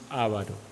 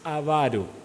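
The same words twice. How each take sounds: First: The stress is on the first syllable. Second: The stress is on the second syllable. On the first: The speaker calls it wrong. "no avaro. ... No tiene acento en la a" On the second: The speaker calls it right. "Es avaro"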